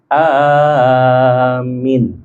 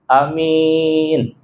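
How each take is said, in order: First: The first vowel is long, the last short. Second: The first vowel is short, the last long. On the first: "yang satu panjang di awal, yang akhirnya pendek" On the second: "yang pertamanya pendek, yang ujungnya adalah panjang"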